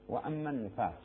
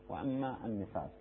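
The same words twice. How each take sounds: The two takes are said the same way.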